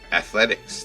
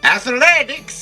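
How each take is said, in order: First: The word is said in a plain, normal voice. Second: The word is said in an exaggerated funny voice.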